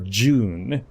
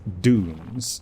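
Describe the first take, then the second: First: The word is said the European way. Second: The word is said the non-European way.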